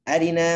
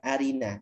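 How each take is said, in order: First: The vowel after the r is briefly shortened. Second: The vowel after the r is full length. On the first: The speaker calls it right. "Rok kasrohnya hanya berharokat satu per tiga saja" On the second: The speaker calls it wrong. "bukan arina"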